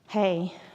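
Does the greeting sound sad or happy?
sad. The greeting sounds sad and down.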